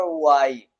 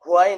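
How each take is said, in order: First: ওয়াই said as "wai", no h sound at the start; correct pronunciation. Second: হোয়াই said with a breathy h, as "hwai"; wrong pronunciation. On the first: Teacher showing students the right way: ওয়াই as wai, no h. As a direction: say ওয়াই cleanly as wai, the h left out. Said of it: "এটার উচ্চারণ হবে ওয়াই". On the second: Teacher warning students off the wrong way: হোয়াই with an h. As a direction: give হোয়াই an audible h at the start to show the mistake. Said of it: "হোয়াই নয়". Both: Shown as a demonstration.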